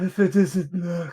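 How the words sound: It is said in a dejected tone.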